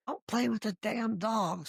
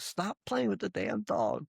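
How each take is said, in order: First: Mild mock yell from the boss, higher; half-hearted imitation of a scolding boss; retold yell. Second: Mild mock yell, higher and slow; slower retold yell. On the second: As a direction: drag the scolding out in a lightly imitated boss voice. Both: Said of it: "Brian would always yell at me".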